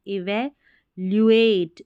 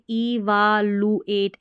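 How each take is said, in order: First: "इवैल्युएट" slowly as ee-va-lyoo-ate; correct pronunciation demo. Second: "इवालुएट" as ee-vaa-loo-ate; wrong spelling reading. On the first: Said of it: "इसका उच्चारण देखिए". ("इवैल्युएट" में वै और ल्यू, धीरे) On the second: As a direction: sound out "इवालुएट" with long aa and plain loo. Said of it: "ऐसे नहीं पढ़ना है". ("इवालुएट" में वा और लू) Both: Shown as a demonstration.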